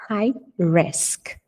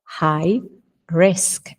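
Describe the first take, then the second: First: Smooth model phrase; joined model. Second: Separated model words. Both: Shown as a demonstration. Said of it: "O H é o R carioca".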